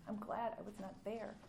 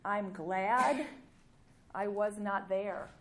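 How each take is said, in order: First: Softly echoing I'm glad I was not there; quiet repeat. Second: Glad and was pressed hard and slow; emphatic quote. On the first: Preacher repeating the verse softly to the congregation, quiet. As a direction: let the line settle, hushed. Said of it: "I came to give life". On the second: Preacher stressing Jesus' words to the crowd, emphatic. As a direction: leans on I'm glad I was not there. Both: Shown as a demonstration.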